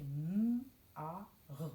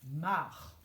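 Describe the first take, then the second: First: M-A-R as three separate slow sounds, mmm, a, rrr; sounded out letters. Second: MARRE run together as one syllable; blended syllable. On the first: Teacher reading written letters to pupils, M-A-R sounded out. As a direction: say each sound of M-A-R apart, with gaps. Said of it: "on a écrit M-A-R". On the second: Teacher reading back the syllable, MARRE blended whole. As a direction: join the sounds of MARRE in a single beat. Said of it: "toute une syllabe qu'on lit ensemble". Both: Shown as a demonstration.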